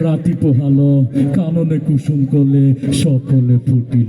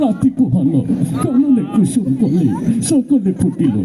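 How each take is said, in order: First: It is recited in a frightening, menacing way. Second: It is recited in a tearful, crying way. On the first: "তোরটা তো আরো বেশি ভয়ঙ্কর শোনা গেল" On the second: "হে কানতে কানতে কয়"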